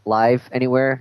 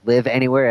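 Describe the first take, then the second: First: Live has a long vowel, rhyming with five. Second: Live has a short vowel, rhyming with give. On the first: Something is live everywhere. "not Live Anywhere" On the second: You can reside anywhere. "as in, hey, you can live anywhere"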